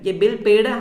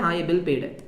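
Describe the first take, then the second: First: पेड with a rising, questioning tune; ये bill पेड है, lifted up at पेड like a question; asking tone. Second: Said in the usual way. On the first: Shown as a demonstration. Teacher checks with the class, rising on पेड.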